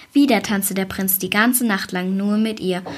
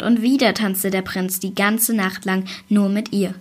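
First: Whispered narration, no voice. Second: Said in the usual way. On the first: A narrator's reading. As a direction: hush it like a secret. Storyteller drops to whisper. (geflüstert, ganz ohne Stimme)

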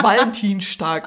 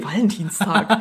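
First: "Valentinstag" with a sh in "-stag"; "Valentinstag" slowed, ending like Dienstag; Swabian-style mispronunciation. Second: "Valentinstag" with a plain s before "tag"; "Valentinstag" the standard way, half laughing; corrected pronunciation. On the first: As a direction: say "Valentinstag" as Valentin-shtag, drawn out. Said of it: "hab immer gesagt". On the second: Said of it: "Und ich so, ja, okay". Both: Retold or imitated.

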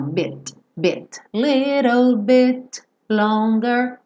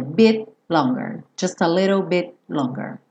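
First: "bit" ending in a little released T click; percussive final T. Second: "Bit longer" with the T held back, unreleased; hidden T. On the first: Teacher says T can be pronounced, percussive pronunciation. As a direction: pop the T lightly at the end of "bit". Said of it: "só com aquele sonzinho da percussão". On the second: Teacher says T may be hidden, swallowed-T pronunciation. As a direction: hide the T of "bit" before "longer". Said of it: "posso esconder". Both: Shown as a demonstration.

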